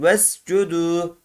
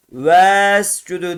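First: "Vescudu" with a short e, closing straight onto the s; clipped first syllable, long last u in "Vescudu"; short first vowel. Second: "Vescudu" with a long, dragged first e; wrongly lengthened vowel. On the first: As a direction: keep "Ves" short in "Vescudu", hold the final u. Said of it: "Elif okumadan geçiyoruz". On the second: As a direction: stretch the opening "Ves" of "Vescudu" too long. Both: Shown as a demonstration.

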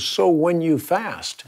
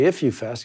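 First: "when" leaned on, a bit higher and slower; slow down and lean on "when", not "if"; "So when you fast" with weight on "when", not "if"; stress on when. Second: Said in the usual way. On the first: Shown as a demonstration. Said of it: "he says". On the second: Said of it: "Jesus didn't say".

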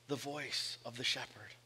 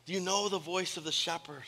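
First: Soft question. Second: Said in the usual way. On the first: Real, not acted. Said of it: "question to congregation". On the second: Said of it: "repeated question".

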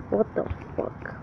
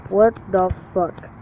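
First: Breathy hushed whisper, no voice. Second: Said in the usual way. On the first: Real, not acted. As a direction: drop to a secret whisper. Whispered aside while gaming.

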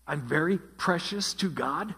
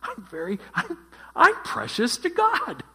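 First: Said in the usual way. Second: Much higher and louder, hammed-up gushing pride; mock proud delight. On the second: Pastor voicing a listener's proud reaction to the angel, hammed-up gushing delight. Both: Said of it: "Jenny said she'd feel proud".

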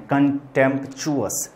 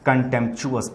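First: कंटेम्प्चुअस slowly broken as "con-temp-chu-us"; teacher's slow, separated कंटेम्प्चुअस; syllable-by-syllable pronunciation. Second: Said in the usual way. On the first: Shown as a demonstration. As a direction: sound out कंटेम्प्चुअस slowly, piece by piece. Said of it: "पढ़ते हैं". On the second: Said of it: "कंटेम्प्चुअस पढ़ते हैं".

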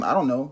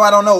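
First: Said in the usual way. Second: "I don't know" shouted louder and higher; exasperated shout. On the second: Acted. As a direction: blurt it out loud, fed up. Repeated denial grows loud.

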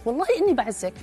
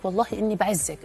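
First: Lightly voiced woman, pitched higher; a hint of her sweet assurance; mock-sincere woman's pledge, a bit higher; quoting a woman. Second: Said in the usual way. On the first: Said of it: "أو هي تقول لك". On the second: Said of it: "ناس يقول لك".

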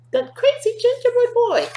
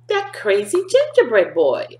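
First: Squeaky high repeat; the teacher repeats the line to the kids, squeaky high; high mock shriek. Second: Said in the usual way. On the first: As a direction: say it again much higher. Repeated higher take.

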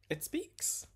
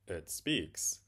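First: Very high-pitched reveal; high, excited pitch; eager announcement. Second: Said in the usual way. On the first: Acted. Daughter's announcement, echoed by father.

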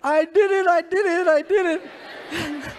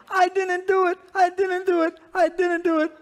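First: Very loud, high mock wail, last words drawn out; cracking confession. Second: Loud, very high mock child's wail; hammed-up spanked boy protesting his innocence; wailing denial. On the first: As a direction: cave in like a spanked child, hammed-up howl. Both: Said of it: "we all crack under torture after a while".

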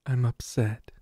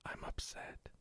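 First: Said in the usual way. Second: Soft unvoiced whisper. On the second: Real, not acted. Player sulking at the game, whispered. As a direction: whisper it to yourself, defeated.

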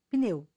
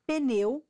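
First: "pneu" as one syllable, pneu, no added vowel; correct pronunciation. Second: "pneu" with an added vowel, pe-neu; wrong pronunciation. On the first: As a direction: say "pneu" tight, p and n together. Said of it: "o certo é pneu". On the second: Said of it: "quando na verdade o certo é pneu". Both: Shown as a demonstration.

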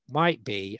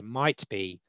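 First: Said in the usual way. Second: Might given weight and falling; stress on might. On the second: Shown as a demonstration. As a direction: lean on the word might, then let it drop. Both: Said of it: "I emphasise the word might here".

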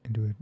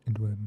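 Both takes have the same delivery.

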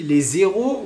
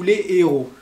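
First: "les héros" linked with z, like lé zéro; "les héros" run together as lé-zé-ro; liaison. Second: "les héros" with les apart, no z; no liaison. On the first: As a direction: link "les héros" so it sounds like les zéros. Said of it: "est-ce qu'on dit". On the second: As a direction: keep a vowel break in "les héros". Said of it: "ou les héros?". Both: Shown as a demonstration.

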